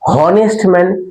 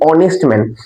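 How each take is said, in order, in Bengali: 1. প্রথম শব্দটি h ধ্বনি দিয়ে শুরু হয়। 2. প্রথম শব্দটি স্বরধ্বনি দিয়ে শুরু হয়। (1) "এইচ আছে তো, তাহলে উচ্চারণটা কি হওয়ার কথা?" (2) "আমরা কি বলি?"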